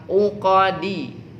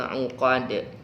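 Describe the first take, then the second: First: The word ends with a short i vowel. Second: The word ends with a heavy bouncing d. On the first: The reading continues without stopping. "Dasar bacaannya uqadi" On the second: The reader stops at this word. "dipantulkan secara lebih tebal"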